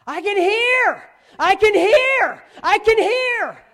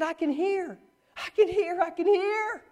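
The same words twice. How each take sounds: First: Very high, slow, full-force holler; ecstatic yelling. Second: Imitated high cry. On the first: Retold or imitated. Healed girl yelling to the youth group, ecstatic shout. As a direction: yell each one out long and high. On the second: Preacher replaying healed girl's words, high contained cry. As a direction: cry it up high without full force. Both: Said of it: "she's yelling".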